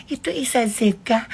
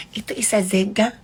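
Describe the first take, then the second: No difference in how they are said.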